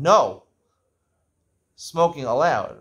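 There is a pause after the first word. Smoking is permitted.

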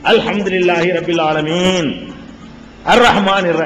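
There is a clear pause after 'alamin'. Each verse is recited separately. The speaker calls it right. "ஒரு ஆயத்துக்கும் அது ஆயத்துக்கு மத்தியில இடைவெளி விடுவார்கள். எப்படி?"

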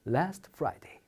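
It is said softly and warmly. The speaker calls it right. "부드럽게 얘기합니다"

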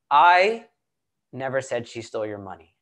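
The stress falls on the word 'I'. Someone else may have said it. "Let's emphasize one word at a time in the statement, right? So let's do the first one"

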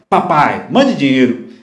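It is said in a harsh, demanding tone. The son is rudely ordering his parents to send money. The speaker calls it wrong. "Isso é jeito de falar com seus pais?"

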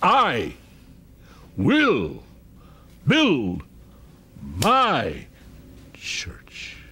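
The word "I" is strongly stressed.

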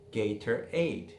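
The middle T is a crisp, full T.

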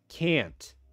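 It is said with an American accent. "American English does"

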